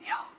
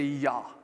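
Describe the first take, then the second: First: It is whispered without voice. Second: It is spoken in a normal voice.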